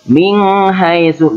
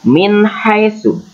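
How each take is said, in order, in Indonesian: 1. Bunyi n disengaukan dan kabur ke bunyi berikutnya. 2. Bunyi n diucapkan dengan jelas sebelum bunyi h. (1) "jangan min haisu, nggak boleh" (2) "harus dibaca jelas, izhar"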